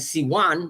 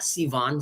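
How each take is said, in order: First: The middle consonant is a w sound. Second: The middle consonant is a v sound. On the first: The speaker calls it right. "is how you pronounce it" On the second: The speaker calls it wrong. "not Sivan"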